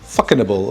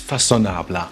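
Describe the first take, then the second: First: It sounds like the English words 'fucking able'. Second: It is said with French pronunciation. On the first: It is a joke. The speaker calls it wrong. "It was an attempt at humor" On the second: It is the real name. The speaker calls it right. "I know how it's pronounced"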